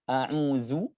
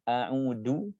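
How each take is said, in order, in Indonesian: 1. Huruf tengahnya bunyi 'z'. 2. Huruf tengahnya 'th' seperti pada 'this'.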